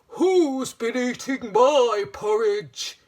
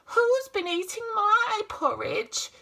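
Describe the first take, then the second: First: It is said in a big, deep voice. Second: It is said in a medium-sized voice. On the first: "he said in a great big voice" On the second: "she said in a middle-sized voice"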